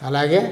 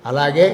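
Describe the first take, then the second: The two takes are said the same way.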